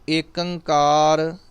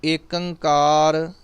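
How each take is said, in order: First: It is said as one word, Ekankar. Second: The same.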